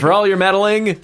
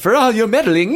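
First: It is said in the speaker's ordinary accent. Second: It is said in a put-on British accent. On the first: The speaker calls it wrong. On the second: The speaker calls it right.

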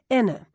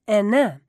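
First: The stress is on the first syllable. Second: The stress is on the second syllable. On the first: The speaker calls it wrong. "They put the emphasis on the first syllable and then just trail off into a vague, indistinguishable vowel" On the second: The speaker calls it right. "Emphasis on the second syllable"

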